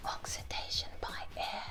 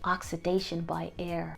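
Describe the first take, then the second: First: Soft unvoiced whisper. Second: Said in the usual way. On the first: Shown as a demonstration. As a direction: breathe it out in a whisper. Repeats answer in a whisper.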